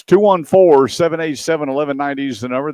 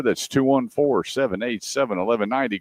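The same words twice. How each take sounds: First: Announcer call-out. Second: Said in the usual way. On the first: Real, not acted.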